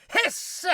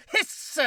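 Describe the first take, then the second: First: Hiss. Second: Breathy hiss with no voice; just air through the teeth; whispered hiss. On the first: Cockroach hisses voiced. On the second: Cockroach hisses unvoiced. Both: Acted.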